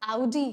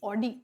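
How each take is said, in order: First: The first vowel is an 'ow' glide. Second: The first vowel is a plain 'aw' sound. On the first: The speaker calls it right. "ये तो आउडी है" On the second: The speaker calls it wrong. "मैं भी एक समय था जब pronounce करती थी ऑडी"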